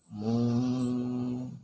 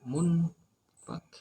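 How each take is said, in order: First: The n is hidden in a nasal ng sound. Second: The n is said clearly before the f. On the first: The speaker calls it right. "Mung, mung antara nun dan fa" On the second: The speaker calls it wrong. "Tidak dibaca mun fak"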